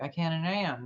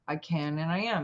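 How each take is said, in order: First: It is said at a normal pace. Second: It is said slowly and with feeling.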